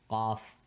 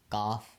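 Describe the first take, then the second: Both takes have the same delivery.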